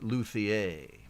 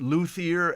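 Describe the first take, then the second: First: It does not sound like Luthor. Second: It sounds like the name Luthor.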